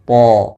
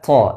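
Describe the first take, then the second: First: The sound is thick with no breath flowing. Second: The sound is released with a puff of breath. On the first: The speaker calls it right. "tapi dibaca dengan to" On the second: The speaker calls it wrong. "bukan pula to dengan mengalirkan nafasnya"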